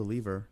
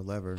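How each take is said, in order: First: "lever" said as LEE-ver, long ee; LEE-ver pronunciation. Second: "lever" said as LEV-er, short e; LEV-er pronunciation. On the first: Player naming a game lever, "lever" as LEE-ver. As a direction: say "lever" to rhyme with beaver. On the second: Player offering the other name, "lever" as LEV-er. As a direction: say "lever" to rhyme with never. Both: Shown as a demonstration. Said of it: "whatever you wanna call it".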